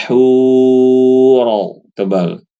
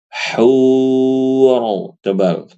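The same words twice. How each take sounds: The two takes are said the same way.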